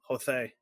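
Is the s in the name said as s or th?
th. The s is a lisped th sound. "lisp that they use"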